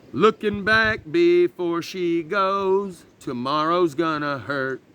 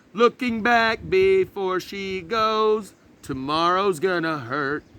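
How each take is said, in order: No difference in how they are said.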